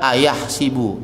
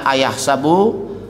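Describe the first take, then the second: First: The vowel after the s is i. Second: The vowel after the s is a. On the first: "Boleh juga dibaca ayah sibu" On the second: "dibaca fathah sinnya"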